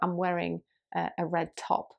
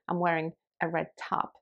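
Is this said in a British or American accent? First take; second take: British; American. First: The vowel in 'top' is short and rounded. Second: The vowel in 'top' is open and unrounded. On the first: "So in the word top, for example" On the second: "In American English, you might say"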